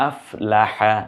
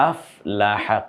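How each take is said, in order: Both takes have the same delivery.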